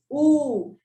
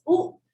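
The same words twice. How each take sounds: First: "oo" held long, like in moon; long oo sound. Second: "U" as a brief oo, like in book; short oo sound. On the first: Teacher contrasting two sounds of double O, "oo" held long. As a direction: draw "oo" out into a long vowel. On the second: Teacher contrasting two sounds of double O, "U" kept short. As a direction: cut "U" short, a quick oo. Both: Shown as a demonstration. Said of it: "the short vowel and the long U sound".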